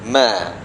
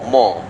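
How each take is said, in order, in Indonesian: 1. Suku kata ini diucapkan tipis dengan vokal yang terang. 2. Suku kata ini diucapkan tebal dengan vokal yang gelap. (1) "mim ni huruf yang tidak tebal... Ma, kita bacakan ma" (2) "ada orang salah je... dia sebut mo mo. Ha, mo dia tak boleh"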